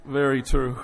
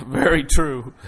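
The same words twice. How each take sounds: First: Said in the usual way. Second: Laughing it out, louder and slow. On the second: Real, not acted. Pastor laughing at his daughter's joke, laughing. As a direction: chuckle through the words.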